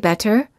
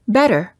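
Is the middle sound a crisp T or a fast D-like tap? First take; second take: crisp t; fast d. First: The middle consonant is a crisp, released T. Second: The middle consonant is a quick tap like a fast D. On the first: The speaker calls it wrong. "We don't say better" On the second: The speaker calls it right. "we say better"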